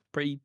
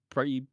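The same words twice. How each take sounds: The two takes are said the same way.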